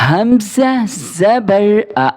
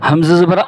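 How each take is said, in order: First: It is read smoothly without a jerk. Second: It is read with an abrupt jerk. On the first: The speaker calls it right. "सही पढ़ने का तरीका" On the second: The speaker calls it wrong. "झटका दे के पढ़ना भी गलत है"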